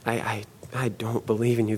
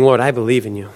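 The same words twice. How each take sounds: First: Soft, stammering admission of doubt; faltering confession. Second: Said in the usual way. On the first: Retold or imitated. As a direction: let faith crumble into a quiet, halting admission. Faith falters in retold prayer.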